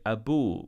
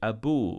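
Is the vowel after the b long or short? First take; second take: long; long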